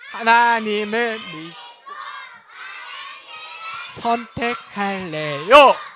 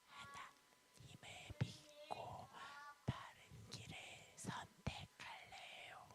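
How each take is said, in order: First: It is said in a loud voice. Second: It is said in a very quiet voice.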